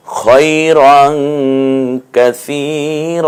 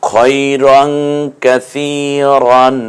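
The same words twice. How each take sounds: First: কাসীর ending in a long drawn a, no -ন; pausal stretch. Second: Said in the usual way. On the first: Shown as a demonstration. Teacher shows how to stop on কাসীর, drawn. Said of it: "কাসীরন বলছি না". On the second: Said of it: "কাসীরন না বলে".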